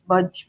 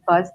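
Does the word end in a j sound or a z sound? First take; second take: j sound; z sound. First: The word ends with a j sound. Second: The word ends with a buzzing z sound. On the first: The speaker calls it wrong. "they say budge" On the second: The speaker calls it right. "they can't pronounce B U Z Z"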